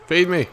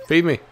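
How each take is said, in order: Both takes have the same delivery.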